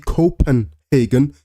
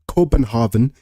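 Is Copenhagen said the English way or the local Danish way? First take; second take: English; Danish. First: The name is said with an ordinary English pronunciation. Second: The name is said with a local Danish-style pronunciation.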